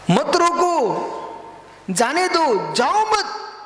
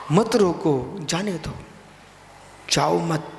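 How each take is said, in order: First: High, forceful preaching commands; emphatic exhortation. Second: Said in the usual way. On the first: Real, not acted. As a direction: call the maxim out in a raised voice. Preacher repeats maxim at raised pitch.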